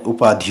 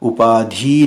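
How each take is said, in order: First: The final i vowel is short. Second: The final i vowel is long. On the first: The speaker calls it right. "उपाधि होता है" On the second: The speaker calls it wrong. "बड़ी की मात्रा तो अशुद्ध है, उपाधि नहीं होता है"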